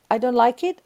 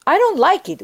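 First: Admitting dislike gently inside a prayer of acceptance; calm acceptance. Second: Higher, sharper, louder protest; a child-like protest about the sister's fall, frustrated; frustrated complaint. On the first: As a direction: say it while letting it go. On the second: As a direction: push back against what happened, annoyed. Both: Pretend.

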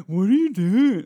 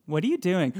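First: Higher, louder taunting whine; mocking sibling, louder. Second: Mild teasing whine; mocking sibling. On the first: Mocking someone unsure of what to do, louder. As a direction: rub it in like a bratty sibling. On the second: Teasing a sibling about not knowing what to do. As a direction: taunt like a bratty sibling. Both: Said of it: "a sibling making fun of someone".

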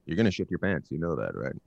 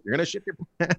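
First: Said in the usual way. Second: High-pitched taunting yell. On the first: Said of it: "he got near us". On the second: Retold or imitated. Man warning a stranger after ice cream, yelling. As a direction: call it out across the store. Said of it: "I just kept yelling at him".

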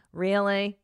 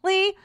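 First: Said in the usual way. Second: Squeaky disbelief, much higher; shocked "Really?". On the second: Retold or imitated. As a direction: jump way up in mock shock. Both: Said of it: "You're like".

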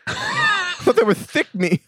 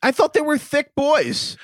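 First: High, slow, laughing dopey voice; goofy cartoon voice. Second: Mock dopey voice. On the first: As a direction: ham it up like a cartoon dummy. Teasing, voice pushed further. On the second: Teasing a friend's guess.

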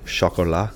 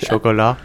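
First: Sho-ko-LAH, French style; French pronunciation. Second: Chocolat as sho-ko-LAH, laughing; playful French Chocolat with a laugh; mock French pronunciation. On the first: Retold or imitated. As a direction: say Chocolat the French way. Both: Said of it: "Tim said chocolat in a very funny way".

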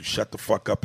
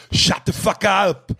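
First: Said in the usual way. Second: Put-on high, loud, drawn-out Austrian-accented yell; hammed-up action hero bellow; Schwarzenegger. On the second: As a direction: shout it as a mock Austrian strongman. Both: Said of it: "Hearing Schwarzenegger tell someone".

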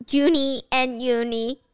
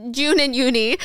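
First: "Junie" said with an extra -ie, a name slip; "Junie and Uni", stumbling over the name; mixed-up "Junie" before the fix; slip of the tongue. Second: "June" said short, one syllable, no -ie; self-correction, "June" said right; corrected name. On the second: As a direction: fix it to a clean "June and Uni". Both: Shown as a demonstration.

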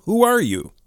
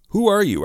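First: High, startled challenge to a stranger; alarmed demand. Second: High, quick nervous question. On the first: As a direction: demand it, pitch leaping up. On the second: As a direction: repeat it hurriedly, pitch jumping with nerves. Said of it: "I repeated quickly and nervously". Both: A narrator's reading.

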